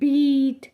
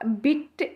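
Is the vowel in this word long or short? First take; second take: long; short. First: The vowel is a long ee sound. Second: The vowel is a short i sound. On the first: The speaker calls it right. "थोड़ी long sound निकालता है ... इस तरह से आप इसको pronounce करोगे" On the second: The speaker calls it wrong. "अगर आप इसको छोटी ई लिखोगे ... ऐसे तो नहीं प्रोनाउंस करोगे, ये तो गलत है ना"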